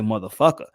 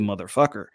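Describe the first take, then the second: First: The final R sound is dropped. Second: The final R sound is pronounced. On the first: "a New Yorker will say" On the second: "Everybody will say ... they pronounce the E R"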